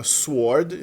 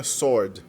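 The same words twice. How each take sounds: First: Sword said with the w sounded, "swoord"; the wrong way: sword with a w glide; teacher showing the mistake, w sounded in sword. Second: Sword said with no w, just "sord"; the right way: sword with a silent w; teacher giving the model sword, silent w. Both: Shown as a demonstration. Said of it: "como se o W não tivesse ali".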